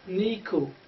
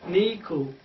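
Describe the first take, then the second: First: The last vowel sounds like U. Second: The last vowel sounds like U.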